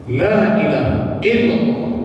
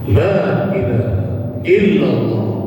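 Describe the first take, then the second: First: The phrase is said quickly and hurriedly. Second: The phrase is said at a medium speed. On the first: "itu masuk tiga" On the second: "masuk dua masih bagus, lafaz dan tajwidnya masih bagus"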